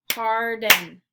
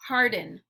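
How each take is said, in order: First: "Harden" in two loud, drawn-out beats; syllable by syllable. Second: Said in the usual way. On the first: Shown as a demonstration. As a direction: clap out "Harden" loudly, syllable by syllable. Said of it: "clap the syllables out". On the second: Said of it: "I'll say the word".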